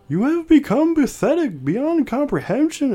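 It is said in a put-on imitation voice. It imitates the person who wrote it. "should I do it in the voice?"

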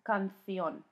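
The c is said like a th. This is how it is said in Spain. "In Spain, it would be pronounced canción ... With a th"

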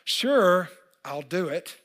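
The voice sounds frustrated and reluctant. The speaker is annoyed about the task. "I'm frustrated for some reason about this picture"

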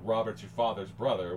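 The th sounds are pronounced as th. "with TH"

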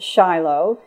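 The name is pronounced the English way. "In English, we pronounce it"

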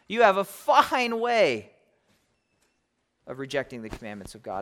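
It is read in a mocking, sarcastic tone. The praise is ironic and actually a rebuke. The speaker calls it right.

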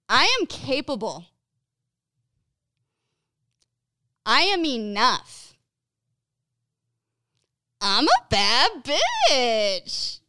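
It is said with lively enthusiasm.

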